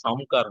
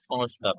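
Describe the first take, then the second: First: সংকার said without the s sound, sang-kar; সংকার clipped to two plain syllables; wrong form sangkar. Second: সংস্কার said with a clear s before k, sans-kar; সংস্কার said fully and carefully, the s cluster distinct; correct form sanskar. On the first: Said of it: "এটা সংকার হবে না". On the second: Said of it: "সংস্কার হবে". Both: Shown as a demonstration.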